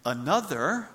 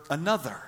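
First: "another" with a rising, questioning tune. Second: "another" with a firm falling tune; "another" falling, final and certain; settled another. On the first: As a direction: ask "another" with the pitch climbing at the end. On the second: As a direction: land "another" with the pitch dropping at the end. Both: Shown as a demonstration. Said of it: "is he saying another or another".

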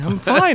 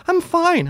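First: "I'm fine" higher than usual but less squeaky; scene: repeating the mock reassurance, higher mock voice; mock insistence. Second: Squeaky high mocking "I'm fine"; mock high falsetto. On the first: Lighter mock voice on "fine". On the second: Teasing high mock voice on "I'm fine". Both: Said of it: "chop his dick off and go".

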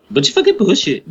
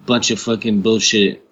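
First: Higher, hammed-up disgusted repeat; mocking emphasis. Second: Said in the usual way. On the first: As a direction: throw it back in a higher put-on voice.

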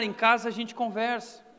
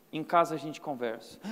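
First: Said in the usual way. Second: Lower, quieter stern father line; a hint of a stern dad warning; stern father quote. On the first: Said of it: "Era só aquele olhar". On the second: Preacher quoting his father's quiet warning to his son. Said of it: "meu pai virava e falava assim".

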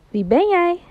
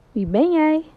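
First: High call with a falling tune; curious call. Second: Echo reply. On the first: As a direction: call up to the mountains. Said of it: "hij roept". (nieuwsgierig roepen naar de bergen) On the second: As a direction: answer back like the mountain. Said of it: "het enige antwoord". (de echo roept terug) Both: Acted.

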